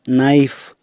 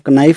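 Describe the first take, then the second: First: The word starts with an n sound. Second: The word starts with a k sound. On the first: The speaker calls it right. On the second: The speaker calls it wrong.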